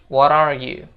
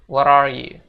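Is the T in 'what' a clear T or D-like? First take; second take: D-like; D-like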